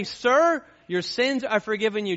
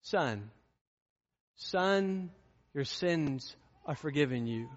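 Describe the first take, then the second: First: Louder, higher formal pronouncement; preacher booming the cold version; formal loud address. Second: Tender. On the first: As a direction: call him out formally as a stranger. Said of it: "he didn't say". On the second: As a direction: speak it gently like a father to his son. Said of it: "what he said to him". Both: Shown as a demonstration.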